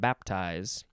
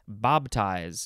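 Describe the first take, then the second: First: The first syllable ends with a P sound. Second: The first syllable ends with a B sound. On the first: This is the standard pronunciation. "not baptize" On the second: This is how it is said in the Southern US. "in Southern, it's Bob. ... It's just a B instead of a P"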